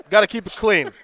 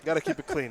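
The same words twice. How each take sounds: First: Loud, hammed-up warning; loud mock warning. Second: Said in the usual way. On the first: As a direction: bark it out as a joke. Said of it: "Gotta keep it clean, man".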